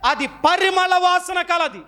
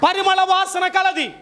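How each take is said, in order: First: Slow, deliberate words, each one weighed; slow statement. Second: Shouted high and slow for emphasis; emphatic shout. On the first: Preacher teaching the flower's trait, slow and deliberate. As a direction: lay it out slowly for the congregation. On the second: Preacher repeating the answer to the crowd, shouting slowly. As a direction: drive the point home with a shout. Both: Shown as a demonstration. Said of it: "ఎలాంటిది?".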